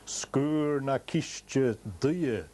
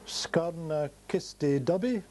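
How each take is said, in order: First: The name is said with native Gaelic sounds. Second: The name is said with anglicized English sounds. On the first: The speaker calls it right. "it should be pronounced" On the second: The speaker calls it wrong. "Oh, no, no, no"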